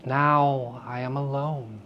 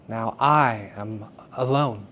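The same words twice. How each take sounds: First: "Now" leaned on, slow and soft; stress on now. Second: "I" leaned on, slow and soft; stress on I. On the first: Teacher contrasting two readings, stress on "Now". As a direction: open with weight on "Now", then let "alone" fall. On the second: Teacher's second reading, stress on "I". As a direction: put the weight on "I" in "Now I am alone". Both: Shown as a demonstration. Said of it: "rather than".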